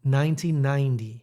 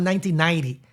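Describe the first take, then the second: First: "Nineteen ninety" with each word separated, careful NT; slowed, softened. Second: Quick "nineteen ninety", consonants run together; rushed pronunciation. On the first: Showing teacher's correction, slowed down. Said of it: "You soften those". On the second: Showing what voice teacher rejected, rushed. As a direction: hurry through "nineteen ninety". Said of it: "you have to slow down". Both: Shown as a demonstration.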